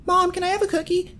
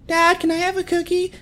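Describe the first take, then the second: First: Put-on much higher, wheedling little-kid voice asking mom; pleading kid. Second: Put-on much higher, wheedling little-kid voice asking dad; pleading kid. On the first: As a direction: play a kid sweet-talking mom for a cookie. Kid begging mom for cookie. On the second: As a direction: play a kid trying dad after mom said no. Kid begging dad for cookie.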